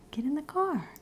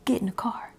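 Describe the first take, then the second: First: "Get in the car" said aloud and higher, not whispered; voiced father's call. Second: Said in the usual way. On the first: Shown as a demonstration. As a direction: call it out like the dad really said it. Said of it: "He said". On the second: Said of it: "He didn't say".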